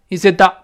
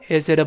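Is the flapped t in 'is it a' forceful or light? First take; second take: forceful; light. First: The t becomes a strong, forceful d sound. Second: The t becomes a very light d sound. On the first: The speaker calls it wrong. "这不能用力气，不能说is it da is it da，不行" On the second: The speaker calls it right. "这种连读加浊化特别轻"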